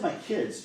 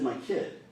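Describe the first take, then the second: First: Put-on "kids" said with its s stressed and a bit higher; stress on plural. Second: Put-on "kid" said plainly with no s, as the singular; stress on singular. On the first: Lawyer contrasting plural "kids" for the jury, stressed. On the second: Lawyer stressing she said singular "kid", plainly. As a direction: land flat on "kid", one child. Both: Shown as a demonstration.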